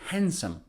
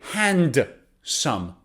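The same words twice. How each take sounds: First: The D sound is silent. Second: The D sound is pronounced. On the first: The speaker calls it right. "We say handsome" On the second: The speaker calls it wrong. "So we don't say handsome"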